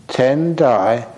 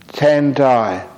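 Both takes have the same delivery.

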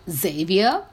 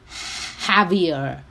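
First: The name begins with a J sound. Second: The name begins with an H sound. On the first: The speaker calls it wrong. "the way I pronounced it was Xavier" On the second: The speaker calls it right. "replace the J with an H and say it as Javier"

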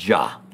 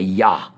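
First: The word begins with a J sound. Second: The word begins with a Y sound. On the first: The speaker calls it wrong. "not a ja, not a J" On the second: The speaker calls it right. "the Y sound is a Yah"

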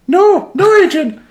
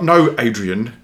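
First: It is said in a squeaky imitation voice. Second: It is said in his normal voice.

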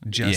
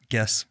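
First: It starts with a soft j sound. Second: It starts with a hard g sound. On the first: This is the more modern pronunciation. "I say jess in the middle" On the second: This is the more ancient pronunciation. "you say guess in the middle"

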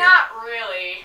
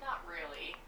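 First: It is said loudly. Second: It is said quietly.

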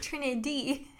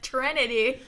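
First: The first vowel sounds like an 'i'. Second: The first vowel sounds like an 'a'. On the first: The speaker calls it right. "But there's an I" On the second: The speaker calls it wrong. "You said it with like an A in there, like Trinity"

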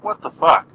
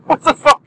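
First: It is said flatly, without surprise. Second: It is said with a shocked, surprised tone. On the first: The speaker calls it wrong. "Not what the fuck" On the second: The speaker calls it right. "You gotta say it like that, as if you are shocked by something"

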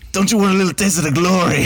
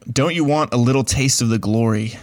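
First: It is said with a put-on foreign accent. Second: It is said in a plain, unaccented voice. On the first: The quote's source is given away at once. "It would have been over" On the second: The quote's source stays hard to guess. "I tried to say it without an accent"

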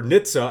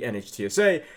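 First: The acronym is pronounced as a single word. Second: The acronym is spelled out letter by letter.

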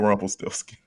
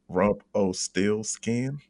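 First: The name is said as Rumpelstiltskin. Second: The name is said as Rump-O-Steel-Skin. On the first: It is the usual form of the name. "But Rumpelstiltskin" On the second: It copies a song's version of the name. "I have to pronounce it like Parliament does on the Motor Booty Affair"

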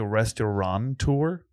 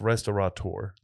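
First: The word has an n sound before the t. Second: The word has no n sound before the t. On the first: The speaker calls it wrong. "I want to say restaurateur. Because it's a restaurant" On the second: The speaker calls it right. "But there's no N. It's restaurateur"

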